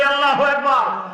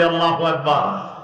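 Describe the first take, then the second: First: Much higher rallying cry; louder takbir call. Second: Said in the usual way. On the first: Shown as a demonstration. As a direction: raise the pitch sharply to rouse the crowd. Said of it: "আরো জোরে বলি". (আরো জোরে, চড়া গলায় তাকবির ধ্বনি) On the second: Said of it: "জোরে বলি".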